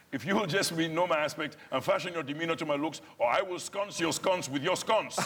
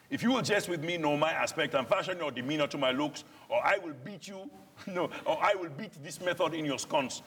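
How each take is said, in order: First: Put-on Nigerian-accented verse botched into sconce your sconce, laughing; retelling an onstage flub with laughter; mangled line. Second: Put-on a threat in Nigerian-accented Shakespeare, pitched high; Nigerian-accented verse. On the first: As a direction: reenact fluffing the line, giggling. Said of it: "the other night I did say". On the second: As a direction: warn him in Nigerian-flavoured verse. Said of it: "we're foreigners speaking this".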